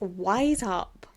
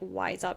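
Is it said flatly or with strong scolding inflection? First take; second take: scolding inflection; flatly. First: It is said with strong, scolding inflection. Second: It is said flatly, without much inflection. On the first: The speaker calls it right. "there has to be inflection there" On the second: The speaker calls it wrong. "It's not just like wise up"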